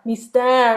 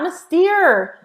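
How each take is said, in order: First: The final syllable rhymes with 'hair'. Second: The final syllable does not rhyme with 'hair'. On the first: The speaker calls it right. "like the word hair or something" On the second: The speaker calls it wrong. "everyone says Mystere. It's not Mystere"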